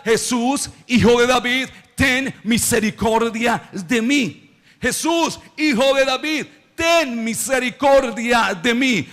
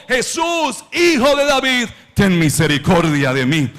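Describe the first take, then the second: First: Mild preacher's version of a blind man's cry; imitated crying out. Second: Imitated forceful shout. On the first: Blind Bartimeo calling to Jesus for mercy, mildly acted cry. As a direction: call out for mercy, slowing on the plea. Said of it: "empezó a gritar". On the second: Blind Bartimeo refusing to be silenced, acted forceful shout. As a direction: cry out with all your force, as preached. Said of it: "Con más fuerza gritó".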